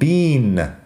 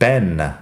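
First: The vowel is a long ee, like bean. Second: The vowel is a short e, like Ben. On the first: This is the British pronunciation. "los británicos que dicen Bean, con la i larga" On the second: This is another regional American pronunciation. "Hay otros americanos que lo dicen Ben"

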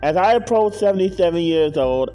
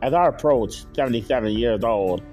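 First: It is said in his ordinary voice. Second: It is said in a put-on fiery voice.

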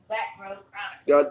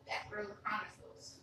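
First: It is said louder. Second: It is said at a normal volume.

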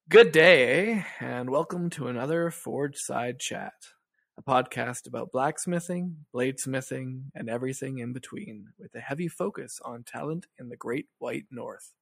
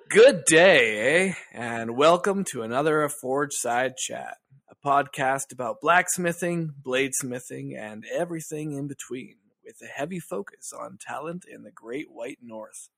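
First: It is said with ordinary, low energy. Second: It is said with lots of energy.

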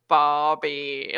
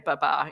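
First: It is drawn out, in a northern accent. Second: It is said short, in a southern accent. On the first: "they're like Barbie, like that. So it's a really like drawl" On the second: "we say baba in the south for father"

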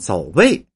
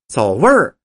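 First: The word ends in a plain vowel, no r-coloring. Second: The word ends with an r-colored sound. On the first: It sounds like a different word. The speaker calls it wrong. "是没带儿化韵" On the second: The intended meaning is understood. The speaker calls it right. "一加儿化音"

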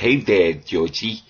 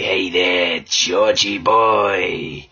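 First: The voice sounds silly and goofy. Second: The voice sounds sinister and menacing.

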